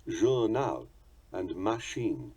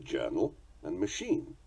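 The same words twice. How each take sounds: First: "journal" as zhoor-nahl, "machine" as ma-sheen, evenly stressed; French "journal" and "machine", equal weight on each syllable; French pronunciation. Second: "journal" as JUR-nal, "machine" as muh-SHEEN; English stresses, front of "journal", end of "machine"; English pronunciation. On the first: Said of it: "their characteristic equal stress". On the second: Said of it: "We pronounce them journal and machine". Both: Shown as a demonstration.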